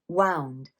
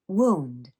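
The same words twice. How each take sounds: First: It is pronounced as the past of wind. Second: It is pronounced as the word for injury. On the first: Turned or wrapped around something. "I think of one way to pronounce it in one meaning, which would be wound" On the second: An injury such as a cut. "there's another way to pronounce it, and that would be wound"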